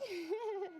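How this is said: It is said in a very high voice.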